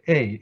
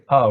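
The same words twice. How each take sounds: First: The vowel is said as the letter name. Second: The vowel is said as a short plain sound. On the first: The letter is read by its name. The speaker calls it wrong. "we don't say A. A is a name" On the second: The letter is read by its sound. The speaker calls it right. "We say A"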